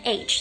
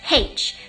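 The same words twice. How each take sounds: First: Said as 'aitch', with no h at the start. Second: Said as Irish 'haitch', starting with h.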